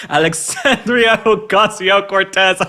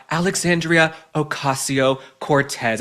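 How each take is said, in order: First: High, slow, drawn-out mock spell-casting; mock spell incantation. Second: Said in the usual way. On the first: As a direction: chant it like a Harry Potter spell. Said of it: "It sounds like a spell from Harry Potter". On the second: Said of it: "It sounds like a spell".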